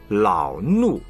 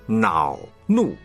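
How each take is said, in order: First: The first syllable begins with an l sound. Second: The first syllable begins with an n sound. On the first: The speaker calls it wrong. "不是老怒" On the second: The speaker calls it right. "恼怒不是老怒"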